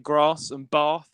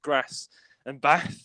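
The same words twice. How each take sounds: First: The vowels are long, in a southern English accent. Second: The vowels are short, in a northern English accent. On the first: "down to where people say grass and Bath" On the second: "instead of grass and Bath"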